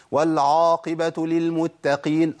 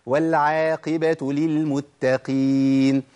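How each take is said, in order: First: "والعاقبة" بعين مفخمة; heavy ain. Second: "والعاقبة" بعين مرققة ببطء; light ain. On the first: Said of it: "كتير من الناس يقول". (تفخيم العين الخطأ) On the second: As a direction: read والعاقبة with a thin ain. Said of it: "هي والعا". (ترقيق العين الصحيح) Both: Shown as a demonstration.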